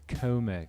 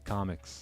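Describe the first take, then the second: First: The word does not sound like 'comics'. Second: The word sounds like 'comics'. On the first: It is how wealthy traders say it. "All the fancy traders say Comex" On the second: It is how ordinary people say it. "I still say comics, like comic books"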